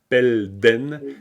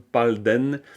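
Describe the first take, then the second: First: The first vowel is an e sound. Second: The first vowel is an a sound. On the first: This follows the rule. "Normalement, ça devrait être pelden" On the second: This is how usage makes it sound. "C'est comme palden"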